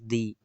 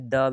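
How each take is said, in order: First: It ends in a long 'ee' vowel. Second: It ends in a short 'uh' vowel. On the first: "और दी, दोनों इसको pronounce करते हैं" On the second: "इसे द भी पढ़ते हैं"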